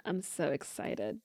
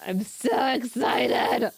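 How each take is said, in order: First: Low, soft and slow; hushed excitement, held down low; quietly excited. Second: Slow, straining squeal into a gasp; overexcited, strained outburst ending in a gasp; bursting with excitement. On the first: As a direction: say it softly, keeping the excitement in. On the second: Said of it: "I'm so excited for everything". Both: Real, not acted.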